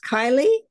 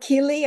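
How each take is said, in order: First: The first vowel sounds like 'eye'. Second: The first vowel sounds like 'ee'. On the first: The speaker calls it right. "It's Kylie" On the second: The speaker calls it wrong. "not Keely"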